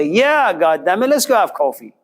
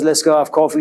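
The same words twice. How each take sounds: First: Mock excited. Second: Said in the usual way. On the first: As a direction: jump at the offer, happily. Depressed teen suddenly happy.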